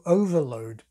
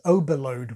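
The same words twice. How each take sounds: First: Overload is said with a v sound. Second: Overload is said with a b sound.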